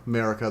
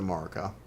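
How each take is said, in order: First: "Marika" said MARE-ih-kuh; alternate pronunciation. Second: "Marika" said MAR-ih-kuh; game's pronunciation. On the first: Streamer conceding the other version of the name, MARE pronunciation. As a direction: begin "Marika" with a MARE vowel. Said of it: "I can see where that". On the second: Streamer giving how the game says it, MAR pronunciation. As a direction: open "Marika" with an open MAR vowel. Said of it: "the game usually pronounces it". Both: Shown as a demonstration.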